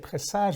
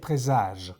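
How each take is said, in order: First: It is pronounced the English way. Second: It is pronounced the French way, s like z. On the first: The speaker calls it wrong. "we don't say presage" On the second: The speaker calls it right. "we say présage"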